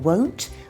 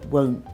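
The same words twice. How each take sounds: First: The final T sound is clearly pronounced. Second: The final T sound is dropped. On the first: "instead of saying won't" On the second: "we say won't"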